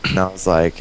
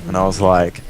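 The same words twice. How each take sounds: The two takes are said the same way.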